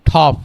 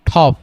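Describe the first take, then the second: No difference in how they are said.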